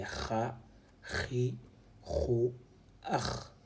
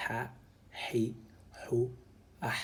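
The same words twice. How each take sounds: First: "ha, hi, hu, ah" with h scraped like German "Bach"; dotted scraped KH. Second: "ha, hi, hu, ah" with a breathy throat h, no scraping; undotted breathy H. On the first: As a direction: sound out "ha, hi, hu, ah" separately, each h a rasping kh. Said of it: "Ici, nous avons un point". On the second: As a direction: sound out "ha, hi, hu, ah" separately, h as pure breath. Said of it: "c'est ce point-là qui fait la différence". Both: Shown as a demonstration.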